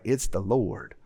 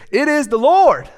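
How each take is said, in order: First: It is said flatly, without any energy. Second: It is said with excited, lively energy. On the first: The statement lacks conviction. The speaker calls it wrong. "it just doesn't ring true if you're just like" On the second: The speaker truly declares it with conviction. The speaker calls it right. "you got to say it like this"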